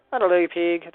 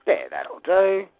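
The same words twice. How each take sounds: First: Gentle approving farmer line, quoting Babe; a mock farmer praising the pig; farmer quote. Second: Drawn-out slow that'll do; slow satisfied. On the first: Builder quoting Babe's farmer to the model, lightly. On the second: Acted. Builder finishing the page, slow satisfied verdict. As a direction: savour it slowly.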